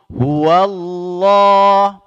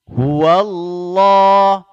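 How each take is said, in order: No difference in how they are said.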